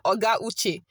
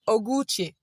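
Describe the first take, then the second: First: Oga and Uche are said as separate words. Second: Oga and Uche are merged into one word. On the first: The speaker calls it wrong. "You don't say" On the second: The speaker calls it right. "You say ... Like you join it together"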